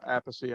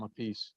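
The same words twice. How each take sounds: First: "Appice" said in three syllables, AP-uh-see; brother's surname pronunciation. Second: "a piece" said as two words, uh-PEECE; alternative surname pronunciation. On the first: Drummer on his brother's surname, "[name]" pronounced AP-uh-see. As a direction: stress the first syllable of "Appice", ending on "see". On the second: Drummer on his brother's muddled surname, pronounced "a piece". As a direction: stress the second syllable of "a piece", rhyming with fleece. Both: Shown as a demonstration. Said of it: "it gets screwed up with your brother".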